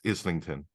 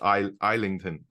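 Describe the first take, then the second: First: The first syllable sounds like 'iz'. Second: The first syllable sounds like 'eye' in island. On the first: This is the usual local way to say it. The speaker calls it right. "dad would always be like" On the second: The speaker assumes it is spelled and said like island. The speaker calls it wrong. "Island. So I'm always like, oh, it's"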